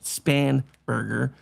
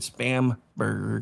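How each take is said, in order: First: The name begins with the sound 'Span'. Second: The name begins with the sound 'Spam'. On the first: "her name is actually pronounced Spanberger" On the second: "I pronounce it Spam Burger"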